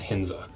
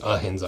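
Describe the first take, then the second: First: The name starts directly with an h sound. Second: The name starts with a vowel sound. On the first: The speaker calls it right. "I think the A is silent" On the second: The speaker calls it wrong. "I don't think it's a Hinza"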